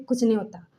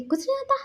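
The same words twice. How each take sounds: First: Said in the usual way. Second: Mocking echo. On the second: Friend mockingly echoes Wing.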